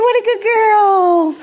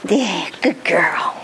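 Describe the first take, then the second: First: High, slow, gushing praise; celebrating praise. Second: Slow, hushed whisper of praise. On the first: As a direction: gush over her slowly, way up high. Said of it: "and celebrate". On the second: Quiet praise after celebration. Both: Shown as a demonstration.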